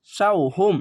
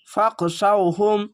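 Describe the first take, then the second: First: Said in the usual way. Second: ফাক শাউহুম joined and stretched slowly; slow joined recitation. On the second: Shown as a demonstration. (ফাক শাউহুম ধীরে মিলিয়ে) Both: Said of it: "এইটুকু একটু শব্দ করে পড়লাম".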